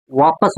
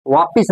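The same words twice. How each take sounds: First: वापस ending in -pas; correct pronunciation. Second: वापिस ending in -pis; incorrect pronunciation. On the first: Teacher recapping the proper word for students, correct pronunciation. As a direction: say वापस with short a in the last syllable. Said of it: "वापस होता है". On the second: Teacher recapping the error for students, incorrect pronunciation. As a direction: say वापिस with an i in the last syllable. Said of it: "वापिस नहीं". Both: Shown as a demonstration.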